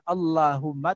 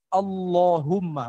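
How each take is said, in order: First: The l sound is light and thin. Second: The l sound is heavy and thick. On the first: The speaker calls it wrong. "bukan Allahumma" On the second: The speaker calls it right. "Allah tebal"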